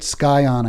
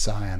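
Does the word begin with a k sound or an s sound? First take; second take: k sound; s sound. First: The word begins with a k sound. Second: The word begins with an s sound. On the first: Listeners will recognize the word. The speaker calls it wrong. "when I suspe- say it Skyon, I think people will know what word I'm talking about" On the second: Listeners may not know which word is meant. The speaker calls it right. "it's like cyanide or something"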